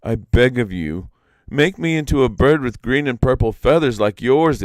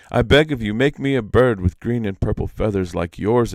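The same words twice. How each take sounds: First: Higher, louder begging; imploring Iktomi. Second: Louder begging plea; imploring Iktomi. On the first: Iktomi begs the peacock to change him, loud pleading. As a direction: plead with the bird. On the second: Iktomi retakes his plea to the peacock, loud pleading. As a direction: beg the bird earnestly. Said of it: "Dang, that was terrible". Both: Acted.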